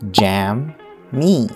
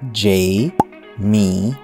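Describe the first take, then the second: First: The first syllable sounds like the word jam. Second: The first syllable sounds like the letter J. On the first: The speaker calls it wrong. "not jam, me" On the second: The speaker calls it right. "it's pronounced as J, me"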